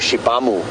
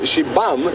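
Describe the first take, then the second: First: The word ends with an added u vowel. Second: The word ends on the m sound. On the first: The speaker calls it wrong. "But a lot of people go Shibamu" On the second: The speaker calls it right. "Kind of don't really pronounce the U at the end"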